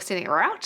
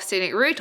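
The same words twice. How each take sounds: First: The word route is said the American way. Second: The word route is said the British way.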